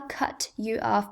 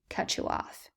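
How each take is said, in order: First: 'Cut' and 'you' are said separately. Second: 'Cut' and 'you' are linked together.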